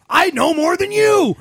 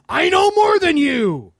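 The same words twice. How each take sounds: First: Mock the know-it-all, shouting. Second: High smug voice, slowly; mock the arrogant know-it-all. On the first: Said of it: "that's always your argument".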